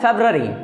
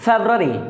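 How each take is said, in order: The two takes are said the same way.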